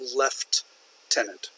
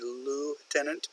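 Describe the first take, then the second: First: It is said the British way, 'left-tenant'. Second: It is said the American way, 'loo-tenant'. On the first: "some people in the U K would pronounce that left-tenant" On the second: "here in the U S and American English we say lieutenant"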